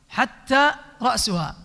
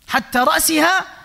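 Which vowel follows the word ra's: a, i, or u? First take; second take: u; i. First: The word ra's ends with a u vowel. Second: The word ra's ends with an i vowel. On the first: A new clause starts with the head. "وإذا رفعها وهو صحيح فصيح" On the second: The head was not eaten. "كسر الرأس، لو كسر الرأس يعني بحركة الكسرة"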